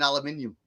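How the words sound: It is said with a British pronunciation. "here in the U K, it's"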